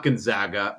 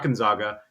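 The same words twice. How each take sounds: First: "Gonzaga" with a flat "a" as in zag; Zag-style Gonzaga. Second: "Gonzaga" with an open "ah" in the middle; corrected-away Gonzaga. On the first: Drunk fan repeats his school, "Gonzaga" rhyming with Zag. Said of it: "Gonzaga, you know, Zags". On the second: Drunk fan mimics the rejected form, "Gonzaga" with a broad ah. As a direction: say "Gonzaga" as gon-ZAH-ga. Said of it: "not Gonzaga". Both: Retold or imitated.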